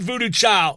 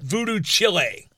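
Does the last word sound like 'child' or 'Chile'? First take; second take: child; Chile. First: The last word sounds like 'child'. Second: The last word sounds like the country Chile. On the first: The speaker calls it right. "Not Voodoo Child" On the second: The speaker calls it wrong. "repeatedly pronounced as Voodoo Chile"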